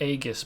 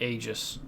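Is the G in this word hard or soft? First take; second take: hard; soft. First: The G is hard, like in 'go'. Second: The G is soft, like in 'gem'. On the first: The speaker calls it wrong. "He pronounced it Aegis" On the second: The speaker calls it right. "with a soft G instead of a hard"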